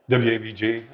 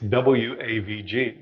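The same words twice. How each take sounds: First: The letters are rushed and run together. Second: Each letter is spoken separately and clearly. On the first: The speaker calls it wrong. "I was just kind of running through it" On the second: The speaker calls it right. "you got to enunciate"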